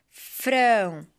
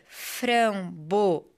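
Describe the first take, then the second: First: FRAMBOESA slowly split as fram-bo-e-za, with pauses; syllable by syllable. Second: FRAMBOESA slowed, with the E stretched and stressed. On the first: Teacher reading for children to find the strong syllable, syllable by syllable. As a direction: sound out each syllable of Framboesa separately. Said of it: "Vamos ler". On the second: Teacher showing children the strongest syllable, stress on the E of framboesa. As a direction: hit the E in framboesa, fram-bo-EEE-za. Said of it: "qual é a sílaba mais forte?". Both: Shown as a demonstration.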